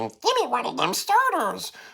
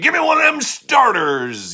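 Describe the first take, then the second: First: It is said in a high squeaky chipmunk voice. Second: It is said in a gruff cartoon cowboy voice. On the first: "Chipmunk version" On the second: "You're not Yosemite Sam"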